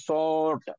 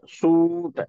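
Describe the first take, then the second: First: The vowel is an open o sound. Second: The vowel is a close oo sound. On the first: "मुंह मुकम्मल गोल नहीं होगा ... सुराख भी बीच में जो होगा वो ज्यादा होगा" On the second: "जब हम बोलते हैं सूट में, तो हमारा होंठ जो है एक दूसरे से करीब होता है"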